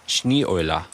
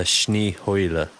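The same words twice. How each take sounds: First: "Schneeeule" with no h, vowels run together; tentative pronunciation. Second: Slow "Schneeheule", with an h before oy; revised pronunciation. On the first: Streamer trying out the German for snowy owl, tentative pronunciation. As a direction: say "Schneeeule" as shnee-oy-luh. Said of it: "I'm probably pronouncing it wrong". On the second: Streamer checking how to say snowy owl, revised pronunciation. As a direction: say "Schneeheule" as shnee-HOY-luh, drawn out. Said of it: "So is it like". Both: Shown as a demonstration.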